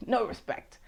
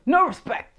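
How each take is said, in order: First: A soft aside echoing the line; muttered catchphrase. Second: Higher, punchy "No respect"; a light hammed-up take on the famous line; Rodney Dangerfield catchphrase. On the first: Retold or imitated. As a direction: let "no respect" fall away under the breath. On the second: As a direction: toss out "No respect" as a bright mock catchphrase. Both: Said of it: "That was Rodney Dangerfield".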